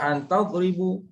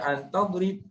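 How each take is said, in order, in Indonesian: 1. Kata terakhir diakhiri dengan vokal u. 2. Kata terakhir tidak memiliki vokal akhir. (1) "Jangan baca an tadribu" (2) "jangan baca an tadrib, tak boleh"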